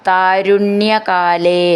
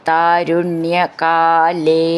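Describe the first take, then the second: The two takes are said the same way.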